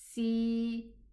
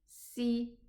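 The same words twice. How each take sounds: First: The vowel is held for two counts. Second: The vowel is cut short. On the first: "With the ya sukoon, ... Two counts" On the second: "Just a sin kasra is si"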